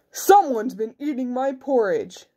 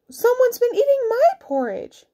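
First: Big bear's indignant complaint. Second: Very high mother bear voice. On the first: Big bear finds porridge eaten, indignant big voice. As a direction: complain firmly as the biggest bear. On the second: Mother bear finds porridge eaten, high indignant voice. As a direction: complain in a high falsetto. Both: A narrator's reading.

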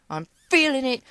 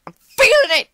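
First: Said in the usual way. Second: High, loud hype cry; real excited yell; hyped shout. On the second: Real, not acted. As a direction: yell it with rising confidence.

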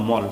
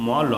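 First: মল as one closed syllable, ending on the consonant; read joined. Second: ম and ল as two separate letters, each with its vowel. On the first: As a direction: blend ম and ল into a single মল. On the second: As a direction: sound out ম, then ল, apart. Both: Shown as a demonstration. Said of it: "দুটিকেই একসঙ্গে পড়বো".

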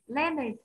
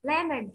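Both takes have the same delivery.

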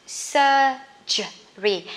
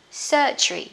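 First: SURGERY very slowly as "sur-ge-ry"; syllable by syllable. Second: Said in the usual way. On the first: Shown as a demonstration. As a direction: pause between the syllables of SURGERY. Teacher breaks word into syllables. (đọc chậm SURGERY, tách từng âm tiết)

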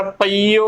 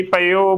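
First: ਪਈਓ as pa-ee-o; correct long ee. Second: ਪਈਓ as short pe-o; wrong short form. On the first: Teacher stating the required reading, ਪਈਓ with long ee. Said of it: "ਉਚਾਰਨ ਕਰਨਾ ਹੈ". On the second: Teacher showing what not to say, ਪਈਓ as pe-o. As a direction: drop the long ee from ਪਈਓ, pe-o. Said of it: "ਪਈਓ ਵੀ ਗਲਤ ਉਚਾਰਨ ਹੋਵੇਗਾ". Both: Shown as a demonstration.

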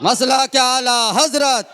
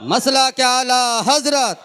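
No difference in how they are said.

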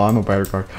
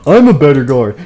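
First: Said in the usual way. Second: Louder, play-acted insistence; insistent. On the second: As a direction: assert it loudly, like a bickering guard. Guard insists in acted argument.

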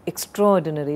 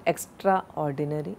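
First: EXTRAORDINARY with extra and or merged, ek-STROR-dinary; correct extraordinary. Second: EXTRAORDINARY split as EXTRA-ORDINARY, softer; wrong extraordinary. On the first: Teacher modelling the word, Extraordinary merged into ek-STROR-dinary. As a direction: run Extraordinary together as ek-STROR-di-nary. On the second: Teacher showing the error, extraordinary softly split into extra ordinary. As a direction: sound extraordinary as two words, extra ordinary. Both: Shown as a demonstration. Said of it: "it's not extraordinary".

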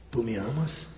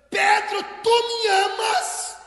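First: Low, soft, intimate question; hushed, coaxing question; charismatic. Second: Very high, drawn-out shouted question; high, stretched, insistent call; emphatic demand. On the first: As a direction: ask gently and privately, pitched right down. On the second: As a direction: cry out the question slowly. Jesus asks the third time. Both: Acted.

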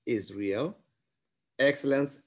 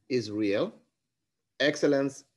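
No difference in how they are said.

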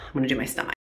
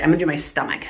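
First: "I'm gonna do my stomach" said again, softer and under the breath; hushed repeat. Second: Said in the usual way. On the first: Real, not acted. Vlogger steeling herself before the injection, hushed.

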